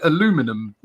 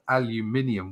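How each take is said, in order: First: It is said the American way, without the extra syllable. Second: It is said the non-American way, with an extra syllable. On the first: This is the form that never changed. The speaker calls it wrong. "the Americans never kept up to their side, and so they continue to call it aluminum" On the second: This is the form from the agreed naming. The speaker calls it right. "aluminium would be the correct way of saying it"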